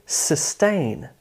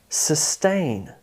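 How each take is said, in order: No difference in how they are said.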